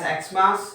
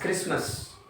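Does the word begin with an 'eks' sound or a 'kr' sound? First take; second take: eks sound; kr sound. First: It begins with a vowel 'eks' sound. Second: It begins with a consonant 'kr' sound. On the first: It takes the article an. "Some people uh, pronounce this as Xmas" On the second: It takes the article a. "some people pronounce this as Christmas"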